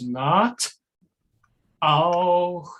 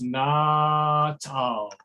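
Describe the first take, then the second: First: A clear catch separates the t from the vowel. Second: The t, catch and vowel blend together. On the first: The speaker calls it wrong. "what I heard was not auch so. Yeah, I'm exaggerating" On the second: The speaker calls it right. "what I'd love to have is not auch"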